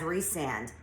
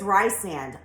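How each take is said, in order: First: The first syllable sounds like 'Reese'. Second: The first syllable sounds like 'rye'. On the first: This is the name as the author intends it. "I will never read that name as Rhysand" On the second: This is how the speaker naturally reads the name. "It is Rysand. I can't help it"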